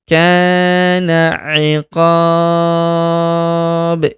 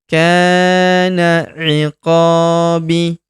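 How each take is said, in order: First: It stops on a bounced b after a longer vowel. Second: It ends on a vowel after a short lengthening. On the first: The reader pauses at this word. "Jika kita hentikan bacaan kita pada huruf B" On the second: The reader continues without pausing. "kalau kita baca dua harokat, maka huruf B kita baca tanpa dimatikan"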